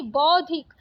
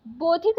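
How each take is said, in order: First: Said in the usual way. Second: बौद्धिक said "bod-dhik", closed o; wrong vowel. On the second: Shown as a demonstration. Teacher rejecting a spelling, बौद्धिक with plain o. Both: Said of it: "बौद्धिक नहीं".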